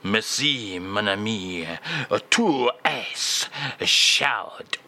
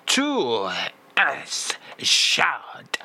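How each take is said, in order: First: Low, very slow mock French phrase; slow French drawl. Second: Tu es chaud breathed out in mock French; breathy French. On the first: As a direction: stretch tu es chaud out slowly in French. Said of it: "And again, please, [name]". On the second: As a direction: sigh tu es chaud in a French accent. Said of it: "it is a belter".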